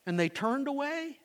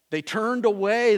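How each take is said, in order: First: Said in the usual way. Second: Emphatic. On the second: Acted. Emphatic sermon repetition.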